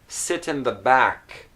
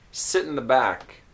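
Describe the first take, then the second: First: It is said in a careful, textbook way. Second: It is said in a relaxed, natural way. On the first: "here's how maybe you know these words" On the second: "This is how I would usually pronounce these words"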